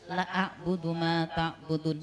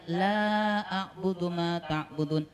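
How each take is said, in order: First: The vowel in 'la' is cut short. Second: The vowel in 'la' is drawn out long. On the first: Indeed I worship what you worship. The speaker calls it wrong. "kalau lanya pendek" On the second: I will not worship what you worship. The speaker calls it right. "kalau lanya panjang"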